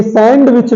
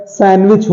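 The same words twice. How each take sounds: First: "सैंडविच" with the D clearly sounded; wrong pronunciation. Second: "सैंडविच" with silent D; correct pronunciation. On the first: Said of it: "ये सैंडविच नहीं होता है". ("सैंडविच" में डी बोलकर) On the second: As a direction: say "सैंडविच" as san-wich. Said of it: "सैंडविच होता है". ("सैंडविच" में डी silent रखकर) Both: Shown as a demonstration.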